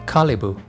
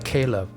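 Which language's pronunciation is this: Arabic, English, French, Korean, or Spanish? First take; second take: Arabic; English. First: It is pronounced the Arabic way. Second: It is pronounced the English way. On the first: "with a and e sound Kalibu in Arabic" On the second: "Start with the Caleb in English"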